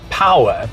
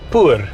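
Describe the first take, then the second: First: It is said with two syllables, like 'power'. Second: It is said with one syllable, like 'poor'. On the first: This is the maker's intended pronunciation. "G W M says is pronounced power" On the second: This is how South Africans would read it. "we would pronounce it poor"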